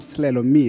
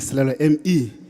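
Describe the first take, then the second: First: The surname sounds like the English word 'me'. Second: The surname does not sound like English 'me'. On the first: The speaker calls it wrong. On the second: The speaker calls it right.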